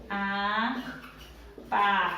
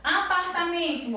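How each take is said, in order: First: "Apartamento" low and slow, a-par-ta-men-to with long pauses; separated into syllables. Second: Said in the usual way. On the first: Shown as a demonstration. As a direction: sound out "Apartamento" one stretched syllable at a time. ("Apartamento" sílaba por sílaba, com pausas longas) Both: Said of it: "Vamos lá separar".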